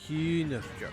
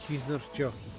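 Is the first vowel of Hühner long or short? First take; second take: long; short. First: The first vowel is long. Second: The first vowel is short. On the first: The speaker calls it right. "The H after U is just making the U longer" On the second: The speaker calls it wrong. "I probably mispronounced that terribly"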